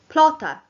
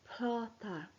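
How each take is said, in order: First: The word is said quickly. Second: The word is said quietly.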